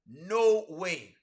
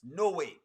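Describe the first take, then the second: First: NO WAY drawn out, each word weighted; slow, firm NO, then a long WAY; emphatic refusal. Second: Said in the usual way. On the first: Real, not acted. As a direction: stretch both words of no way.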